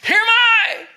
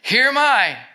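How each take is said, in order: First: It is said in an urgent, alarmed voice. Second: It is said in a calm reading voice.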